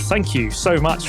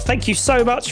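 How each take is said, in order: First: It is said without the character's special voice. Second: It is said in a put-on character voice. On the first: The speaker calls it wrong. "I'm not doing the right voice" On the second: The speaker calls it right. "Let me try that again"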